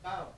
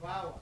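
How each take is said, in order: First: The middle consonant is a full b stop. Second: The middle consonant is a soft w-like sound. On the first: The speaker calls it wrong. "no es baba" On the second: The speaker calls it right. "es bawa"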